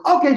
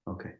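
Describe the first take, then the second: First: Loud, high imitated "Okay"; abrupt retold okay. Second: Subdued, low-key imitated "Okay"; quiet okay. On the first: Husband breaking the silence after playback, abrupt okay. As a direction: burst in with it, mimicking the husband. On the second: Husband told to shut up, quiet okay. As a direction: say it small, mimicking a hushed husband. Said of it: "It's just quiet as he goes".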